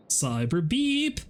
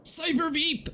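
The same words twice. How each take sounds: First: Slow, drawn-out proud naming; slow grand announcement. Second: Very high squeaky announcement of the name. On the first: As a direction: stretch it out like a grand title. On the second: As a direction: squeal the name like a tiny hype man. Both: Pretend. Chanting the new name.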